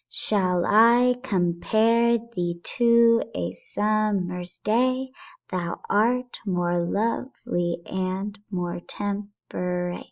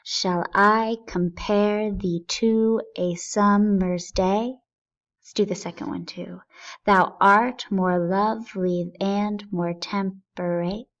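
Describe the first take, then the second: First: Each stress beat spelled out, very slow; marking the meter. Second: Said in the usual way. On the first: Shown as a demonstration. Teacher marking the iambic beats for the class, very slow. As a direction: tap out every iamb, da-DUM. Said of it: "let's identify these". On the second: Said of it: "I will read the first line out loud".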